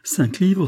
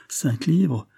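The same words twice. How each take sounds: First: Higher, louder cry on livres; rising amazement. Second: Disbelieving, high query on livres; stunned question. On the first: The poor woman realising the sum, overjoyed. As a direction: repeat it, now overwhelmed. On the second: The poor woman checking the sum, stunned. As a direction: ask it as if mishearing. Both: A narrator's reading. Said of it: "suffoquée par la surprise et par la joie".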